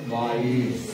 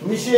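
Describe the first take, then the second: First: It is read with a long ai and s. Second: It is read with a short i and sh. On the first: The speaker calls it right. "ते M I सी आहे, माईस" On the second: The speaker calls it wrong. "मिशे असं वाचणार काही जण"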